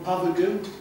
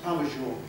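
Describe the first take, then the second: First: The last syllable sounds like 'goo'. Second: The last syllable sounds like 'zho'. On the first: This is how many people say it. The speaker calls it wrong. "Lots of people call him Pavagoo" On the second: This is how the name is really said. The speaker calls it right. "but it's uh, pronounced Pavageau"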